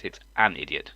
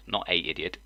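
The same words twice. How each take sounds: First: "an" picked out before "idiot"; stress on AN. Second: "a" said as full "ay" before "idiot"; stress on A. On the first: Correcting someone's article, "an" stressed. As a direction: correct form, leaning on "an". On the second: Showing the grammar error, "a" stressed as "ay". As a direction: pick out "a" as the mistake. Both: Shown as a demonstration.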